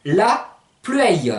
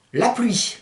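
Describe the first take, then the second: First: LA PLUIE as a slow Provençal "la plueio"; slow la pluie, drawn out to "plu-èi-o"; Provençal pronunciation. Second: Said in the usual way. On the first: Shown as a demonstration. Teacher translating rain, slow Provençal pronunciation. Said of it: "qui se dit". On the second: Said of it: "Vous pouvez dire aussi".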